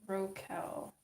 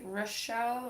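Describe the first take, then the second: First: The middle consonant is a hard k sound. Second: The middle consonant is an sh sound. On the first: "a hard sound like a K sound" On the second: "more like a sh sound"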